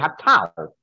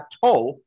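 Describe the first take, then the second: First: The vowel is the patach form. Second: The vowel is the kamatz form. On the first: This is the form used mid-sentence. "If it was in the middle of a sentence" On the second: This is the form used at the end of a verse. "with a comet is the kind that you find at the end of a pasuk"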